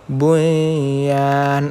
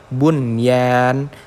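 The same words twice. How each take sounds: First: The n sound merges into the following sound. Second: The n sound is pronounced clearly and separately. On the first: The speaker calls it wrong. "kita tidak boleh membacanya dengan bunyan" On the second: The speaker calls it right. "harus benar-benar dijelaskan hurufnya"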